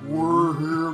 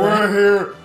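First: The voice is pitched much deeper. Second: The voice is pitched higher and lighter. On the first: The speaker calls it right. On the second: The speaker calls it wrong.

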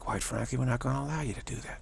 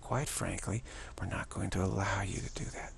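First: It is said in the speaker's ordinary voice. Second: It is said in a put-on voice.

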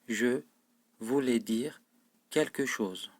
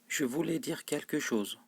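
First: The sentence is spoken at a slow pace. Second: The sentence is spoken at a fast, normal pace. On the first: "Sonra da yavaş okuyorum cümleyi" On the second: "Önce hızlı okuyorum, yani normal seviyede okuyorum"

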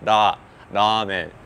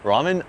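First: It starts with a sound between L and R. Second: It starts with a plain English R sound. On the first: The speaker calls it right. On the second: The speaker calls it wrong.

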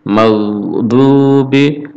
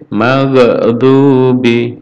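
First: The consonant is released smoothly without bounce. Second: The consonant is released with a bouncing echo. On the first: The speaker calls it right. "cukup maudhubi" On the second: The speaker calls it wrong. "jadi tidak boleh mantul, tidak boleh maghdubi"

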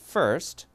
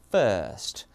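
First: The r sound is pronounced. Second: The r is dropped and the vowel lengthened. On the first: "미국은요" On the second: "영국이"

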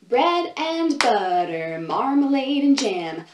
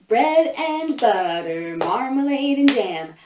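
No difference in how they are said.

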